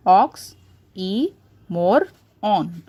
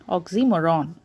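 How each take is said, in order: First: "ox, e, more, on" with pauses between; "ox, e, more, on" beat by beat; four separate syllables. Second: Said in the usual way. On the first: Shown as a demonstration. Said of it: "which are four syllables in one word". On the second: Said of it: "four syllables in one word".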